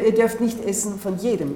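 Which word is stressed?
jedem. The stress falls on the word jedem. Not every tree may be eaten from. "oder ihr dürft nicht essen von jedem"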